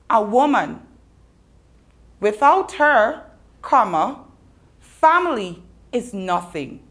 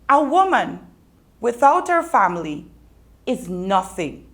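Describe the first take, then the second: First: It is said with pauses after woman and her. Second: It is said without pauses after woman and her.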